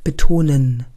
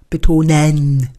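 First: The word is spoken fully to its end. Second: Every sound of the word is overemphasized. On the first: The speaker calls it right. "Jetzt hast du es bis zu Ende gesprochen" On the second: The speaker calls it wrong. "Jetzt hast du übertrieben"

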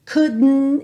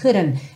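First: The d is swallowed inward, not released. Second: The d is a quick tapped flap sound. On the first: This is the more British way. "é como se fosse um som para dentro" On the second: This is the more American way. "ver esse D como rarara"

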